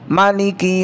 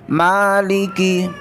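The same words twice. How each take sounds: First: The vowel after the m is kept short. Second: The vowel after the m is drawn out long. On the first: "membaca pendek" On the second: "membaca dengan memanjangkan huruf mimnya"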